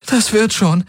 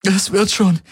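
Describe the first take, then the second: First: High, stress on Das, falling; holding back sobs. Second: High, stress on wird, falling; holding back sobs. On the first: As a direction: force out "Das" bravely, choking on tears. (Schluchzen unterdrückend, Betonung auf "Das") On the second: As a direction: lean on "wird" to convince herself. (Schluchzen unterdrückend, Betonung auf "wird") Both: A narrator's reading. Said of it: "unterdrückte ein Schluchzen".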